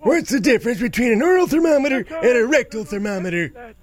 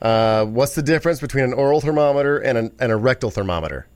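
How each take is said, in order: First: It is said in a put-on old man's voice. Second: It is said in the speaker's normal voice.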